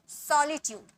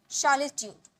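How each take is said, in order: First: Solitude begun with a clean s sound; s onset. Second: Solitude begun with a sh sound; wrong sh onset. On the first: Teacher corrects the word for learners, s onset. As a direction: say solitude with s, never sh, at the start. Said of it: "स". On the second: Teacher slips into the wrong sound for learners, sh onset. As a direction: say solitude as "sholitude", sh for s. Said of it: "श नहीं". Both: Shown as a demonstration.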